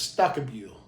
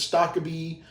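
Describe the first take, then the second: First: The name ends with a 'bill' sound. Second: The name ends with a 'bee' sound. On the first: This is how the name's owner says it. The speaker calls it right. "the proper way is Stockabil" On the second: This is how most people say the name. The speaker calls it wrong. "everybody says Stockaby"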